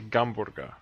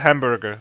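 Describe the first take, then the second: First: The word begins with a G sound. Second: The word begins with an H sound.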